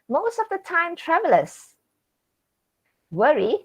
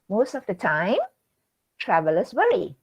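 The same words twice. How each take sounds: First: It runs straight through without a pause. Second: There is a pause after the word time. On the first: It is about travelers who travel in time. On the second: Travelers usually worry.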